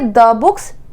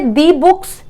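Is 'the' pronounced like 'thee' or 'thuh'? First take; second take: thuh; thee. First: 'The' is said with a short 'thuh' vowel. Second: 'The' is said with a long 'thee' vowel. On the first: The speaker calls it right. "आप बोलेंगे द books" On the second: The speaker calls it wrong. "दी books दी movies नहीं बोलेंगे"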